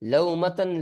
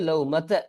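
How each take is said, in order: First: The word ends with an added n sound. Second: The word ends on a plain short vowel. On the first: The speaker calls it wrong. "இது தவறு" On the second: The speaker calls it right. "ஃபத்ஹா மட்டும் தான் இருக்கும்"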